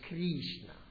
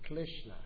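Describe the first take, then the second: First: It is said with a Spanish accent. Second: It is said with a Chinese accent. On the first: "they say Krishna" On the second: "many people in China say it wrong. They say Krishna"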